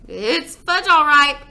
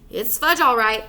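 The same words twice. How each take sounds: First: Excited repeat. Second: Said in the usual way. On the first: Acted. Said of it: "my brother repeated".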